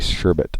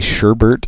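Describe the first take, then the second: First: The second syllable has no r sound. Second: The second syllable has an r sound. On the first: The speaker calls it right. "It's actually Sherbet" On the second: The speaker calls it wrong. "I think I say Sherbert instead of Sherbet"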